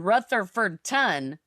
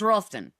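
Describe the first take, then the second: First: Every syllable of the name is said clearly. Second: The syllables are squeezed and run together. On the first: This is how outsiders say it. The speaker calls it wrong. "no one says that" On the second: This is how locals say it. The speaker calls it right. "it's just all run together"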